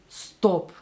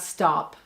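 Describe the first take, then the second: First: The vowel is said with rounded lips. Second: The vowel is open and unrounded. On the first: "She's actually rounding her vowels here" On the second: "not stop"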